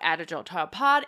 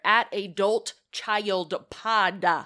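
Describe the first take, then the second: First: The words are mumbled and not clearly articulated. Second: The words are articulated clearly and distinctly. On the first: The speaker calls it wrong. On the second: The speaker calls it right.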